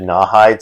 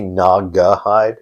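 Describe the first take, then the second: First: The name is said with two syllables. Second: The name is said with three syllables. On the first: The speaker calls it wrong. "I always said Nawhide" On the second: The speaker calls it right. "it is supposed to be Nagahide"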